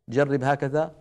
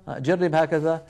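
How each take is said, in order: Both takes have the same delivery.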